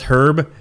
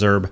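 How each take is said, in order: First: The word begins with an H sound. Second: The word begins without an H sound. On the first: The speaker calls it right. "if your name was Herb" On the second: The speaker calls it wrong. "he never could pronounce the H"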